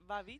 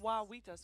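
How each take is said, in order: First: The name begins with a V sound. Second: The name begins with a W sound. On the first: The speaker calls it wrong. "because I did Vavitas, which is wrong" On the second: The speaker calls it right. "it's a wa"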